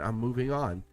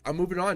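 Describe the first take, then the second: First: It sounds calm and emotionally mature. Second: It sounds pressuring and manipulative. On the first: It is a sincere decision to move on. The speaker calls it right. "Emotionally mature" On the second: It is a ploy to pressure the other person. The speaker calls it wrong. "Not, ... You gonna date me now?"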